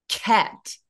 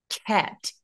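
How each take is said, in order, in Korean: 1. 첫 자음을 잠깐 막았다가 세게 터뜨려 발음해요. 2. 첫 자음을 잠깐 막았다가 세게 터뜨려 발음해요.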